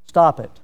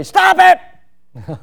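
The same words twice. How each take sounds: First: Said in the usual way. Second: "Stop it!" barked much higher and louder; sharp command. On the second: Shown as a demonstration. Preacher contrasts a plain and a commanding "Stop it!". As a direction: snap "Stop it!" as an order. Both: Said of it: "one's in the imperative and one's not".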